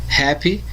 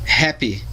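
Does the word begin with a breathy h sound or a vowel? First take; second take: breathy h; breathy h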